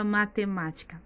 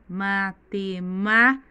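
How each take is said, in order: First: Said in the usual way. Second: Matemática split slowly as ma-te-MÁ-tica, MÁ loud; slow syllable-by-syllable matemática, heavy on MÁ; stress on third syllable. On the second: Shown as a demonstration. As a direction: punch and hold the MÁ in matemática. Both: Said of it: "A sílaba tônica mais forte é o má".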